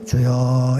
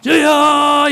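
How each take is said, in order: First: It is said quietly on a low pitch. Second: It is said loudly on a high pitch.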